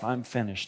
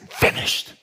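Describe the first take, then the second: First: It sounds defeated and resigned. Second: It sounds triumphant and declaring.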